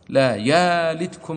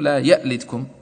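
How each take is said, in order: First: The hamza is replaced by a long vowel. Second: The hamza is said as a glottal stop. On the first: "فالسوسي على أصله يبدلها" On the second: "بتحقيق الهمزة"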